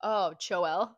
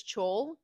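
First: CHOEL split into cho-ELL; "Choel" with a separate final "ell"; two-syllable Choel. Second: CHOL as a single syllable; "Chol" run together, no second vowel; one-syllable Chol. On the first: Retold or imitated. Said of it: "when Childry read it, they were like". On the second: Shown as a demonstration. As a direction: say "Chol" in one beat, long O into L. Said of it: "is how I read it".

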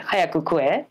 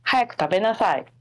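First: "Hayaku kue" tossed off rough and casual; blunt, offhand "Hayaku kue"; rough casual Japanese. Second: "Hayaku tabenasai" said neatly and quickly, polite standard form; crisp textbook "Hayaku tabenasai"; standard Japanese. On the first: Showing a friend the rough casual version, blunt. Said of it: "say in a real rough format and casual way". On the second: Explaining dialects to a friend, clean standard Japanese. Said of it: "standard Japanese". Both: Shown as a demonstration.

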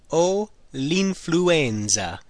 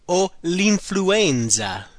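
First: Very slow, deliberate repeat. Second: Very slow, careful model phrase. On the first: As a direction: drag it out so learners can follow. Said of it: "I have the flu". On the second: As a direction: spell it out by sound. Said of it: "The next one is". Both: Shown as a demonstration.

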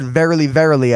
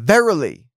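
First: Said in the usual way. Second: VERILY said once, stretched with a falling tone; passionate emphasis. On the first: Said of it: "when something's repeated twice". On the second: Shown as a demonstration. Preacher showing how Jesus stressed the word, passionate emphasis. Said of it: "but with emphasis".

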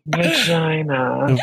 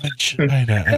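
First: Slow, drawn-out vagina like a perfume ad; sultry perfume-ad vagina; perfume commercial voice. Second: Airy, breathy vagina; perfume-ad vagina in a breathy voice. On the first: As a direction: purr vagina as if selling perfume. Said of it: "Like you're in a perfume commercial". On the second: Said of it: "like, all breathy". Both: Shown as a demonstration.

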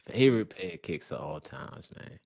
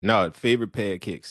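First: Baltimore accent. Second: "favorite pair of kicks" said louder, as a correction; louder repeat of "pair of kicks" for a listener who misheard; corrective repeat. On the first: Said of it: "that's my bad Baltimore accent". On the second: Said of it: "See, that's my bad Baltimore accent". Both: Real, not acted.

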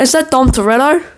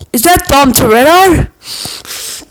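First: Higher, quicker repeat of the call; calling again. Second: Slow, high, drawn-out call; yelled out. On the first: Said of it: "I'm like". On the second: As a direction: yell it slowly across the beach. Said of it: "I yell out". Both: Retold or imitated.

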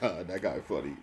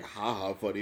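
First: Lower, understated single ha; offhand nod to someone being funny; dry acknowledgment. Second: Ordinary-pitched ha-ha, as if truly tickled; genuinely amused ha-ha. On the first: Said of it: "but I'm like". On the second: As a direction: laugh it off as plainly funny. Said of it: "it's not like I'm like". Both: Shown as a demonstration.

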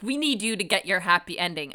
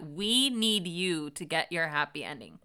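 First: Said in the usual way. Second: Measured repeat leaning on "We need you"; pointed requote. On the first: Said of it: "Meredith is like". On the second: Retold or imitated. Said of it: "the way you phrase that".

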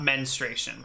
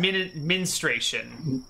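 First: "menstruation" said with "men" as in "menstrual"; "menstruation" starting with an "e" sound, "men-stray-shun"; wrong pronunciation. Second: "menstruation" said as "min-STRAY-shun", with an "i" in the first syllable; correct pronunciation. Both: Shown as a demonstration. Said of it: "not menstruation".

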